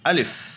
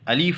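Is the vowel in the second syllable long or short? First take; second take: short; long. First: The second syllable has a short 'i' vowel. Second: The second syllable has a long 'ee' vowel. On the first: The speaker calls it right. "अलीफ नहीं है वो, अलिफ" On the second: The speaker calls it wrong. "बाज़ लोग अलिफ को अलीफ पढ़ते हैं, ये गलत है।"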